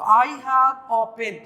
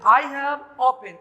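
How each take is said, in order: First: "a" reduced to a short "अ", very slow; "I have a pen" with a weak schwa "a"; slow teacher demo of the weak "a"; weak form a. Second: "a" said as a full "ए", slow; slow wrong-way demo with strong "a"; wrong strong form. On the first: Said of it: "क्या बोलेंगे? अ". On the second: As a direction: read "I have a pen" with a full "ए". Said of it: "ए pen बोलेंगे तो बिल्कुल गलत है". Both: Shown as a demonstration.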